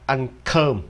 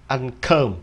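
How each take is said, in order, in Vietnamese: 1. Được phát âm với giọng Anh. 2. Được phát âm với giọng Anh.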